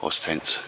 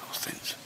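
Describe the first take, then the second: First: Said in the usual way. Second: Oz tents repeated in a hushed whisper. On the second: Real, not acted. Vlogger pointing out the neighbours' tents, whispered aside. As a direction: breathe the brand name again under your breath.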